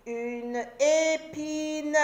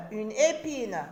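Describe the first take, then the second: First: Épine étiré lentement; découpe épine en syllabes, lentement; très lent, syllabé. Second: Said in the usual way. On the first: Shown as a demonstration. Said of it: "syllabé puis normal". (dire « une épine » très lentement) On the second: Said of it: "repris normalement".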